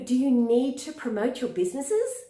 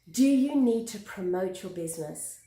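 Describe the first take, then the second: First: The voice rises at the end of the question. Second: The voice falls at the end of the question. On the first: The speaker sounds less certain and less confident. The speaker calls it wrong. "I'm going up at the end" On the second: The speaker sounds more certain and confident. The speaker calls it right. "Do you hear the lower at the end?"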